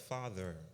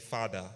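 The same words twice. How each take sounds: First: The word is said in an American accent. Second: The word is said without an American accent. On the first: "speak with an American accent" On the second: "not to say father"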